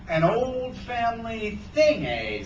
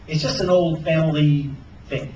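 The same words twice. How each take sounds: First: Slow, high, drawn-out echo; suspicious echo. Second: Said in the usual way. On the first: A narrator's reading. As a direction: repeat it slowly with suspicion. Hook echoes Sarah suspiciously.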